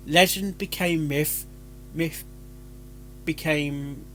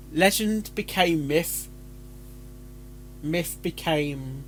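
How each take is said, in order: Both takes have the same delivery.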